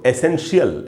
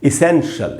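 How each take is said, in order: First: The first vowel is an open 'eh' sound. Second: The first vowel is a short 'ih' sound. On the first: The speaker calls it wrong. "इसको अक्सर हम लोग एसेंशियल ऐसे करके बोलते हैं" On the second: The speaker calls it right. "सही उच्चारण"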